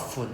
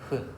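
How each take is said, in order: First: It starts with a hard English f sound. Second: It starts with a soft breathy h-like sound. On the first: The speaker calls it wrong. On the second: The speaker calls it right.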